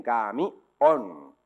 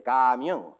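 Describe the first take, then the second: First: CAMIÓN split slowly, ca-mi-ÓN; correct final stress. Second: CAMIÓN stressed on the first syllable, CAAA-mion; child's wrong guess, camión as CÁ-mion; misplaced stress. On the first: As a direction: hit the last syllable of camión hard and long. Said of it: "te hacen bien esta tarea aislada". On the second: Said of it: "Y el niño te dice". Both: Acted.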